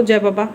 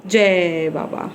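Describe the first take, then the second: First: Said in the usual way. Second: Drawn-out, very slow जय बाबा; slow demo for baby. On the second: Shown as a demonstration. Mother slowly showing Tashi how to say जय बाबा. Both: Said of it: "हाथ जोड़ के करो".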